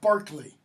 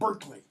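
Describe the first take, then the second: First: The first syllable sounds like 'bar'. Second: The first syllable sounds like 'burr'. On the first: The speaker calls it right. "It's pronounced Barkley" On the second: The speaker calls it wrong. "not Berkeley"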